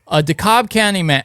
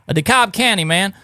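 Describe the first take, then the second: First: It is said in a Southern US accent. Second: It is said in a neutral accent.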